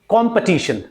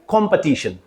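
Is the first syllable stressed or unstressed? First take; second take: stressed; stressed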